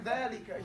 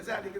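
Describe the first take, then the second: First: The word begins with a th sound. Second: The word begins with a z sound. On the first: This is how it sounds in Quran recitation. "they say dhalika, you know, they do it right" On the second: This is how it sounds in everyday speech. "they don't say zalika"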